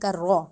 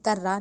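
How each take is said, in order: First: The r sound is heavy with rounded lips. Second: The r sound is light and thin. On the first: The speaker calls it right. "मोटा मुंह को गोल करके" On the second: The speaker calls it wrong. "कर्रा नहीं कहेंगे"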